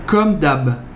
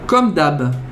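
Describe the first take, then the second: First: The phrase is cut short at the end. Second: The phrase is cut short at the end.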